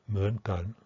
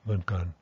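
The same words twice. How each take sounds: First: The first syllable has a complex contour tone. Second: The first syllable has a quicker simple tone. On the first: "instead of mun" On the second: "it's going to be mun kan"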